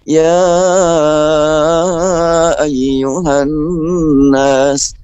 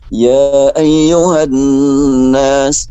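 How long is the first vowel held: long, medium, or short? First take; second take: long; short. First: The first vowel is held very long. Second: The first vowel is held briefly. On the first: "boleh sampai lima sampai enam" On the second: "dua harokat"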